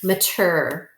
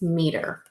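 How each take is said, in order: First: The first vowel is a weak 'uh' sound. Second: The first vowel is a full 'ee' sound. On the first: It is a syllable inside a longer word. "if this is in a multisyllabic word, you will read it as mature" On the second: It is the word on its own. "if this were the word all on its own, it is meter"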